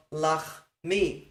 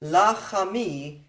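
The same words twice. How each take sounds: First: Lachmi slowly as lach, then mi; no extra vowel. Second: Lachami slowly as la-cha-mi; extra vowel. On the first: Teacher giving the replaced lachmi, two-beat demonstration. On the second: Teacher contrasting Lachami with lachmi, extra-vowel demonstration. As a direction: draw out Lachami with an A after the ch. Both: Shown as a demonstration. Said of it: "instead of lachmi".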